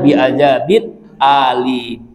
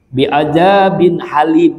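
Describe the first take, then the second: First: The last word begins with a glottal stop. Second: The last word begins with an h sound. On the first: It means a very painful punishment. The speaker calls it right. "Yang benar ... Pakai hamzah" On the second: It means the most forbearing, a name of God. The speaker calls it wrong. "itu salah itu"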